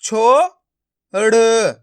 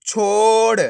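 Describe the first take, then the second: First: छो and ड़ sounded separately; syllable by syllable. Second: छोड़ as one stretched word; blended word. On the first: Teacher breaking a word up for learners, syllable by syllable. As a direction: say छो, pause, then ड़ alone. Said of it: "एक एक अक्षर का उच्चारण करके". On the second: Teacher showing learners the joined result, blended word. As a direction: hold छो straight into ड़. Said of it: "आपस में मिला के पढ़ देना है". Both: Shown as a demonstration.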